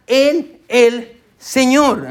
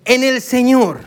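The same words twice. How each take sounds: First: "en el Señor" drawn out slowly, each word weighted; slow emphasis. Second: Said in the usual way. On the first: Shown as a demonstration. Pastor spelling out "en el Señor" to the congregation, slow and weighted. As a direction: linger on "en el Señor" to make them notice. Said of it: "quiero que note la palabra". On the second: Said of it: "¿qué dice?".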